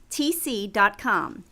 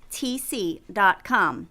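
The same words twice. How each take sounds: The two takes are said the same way.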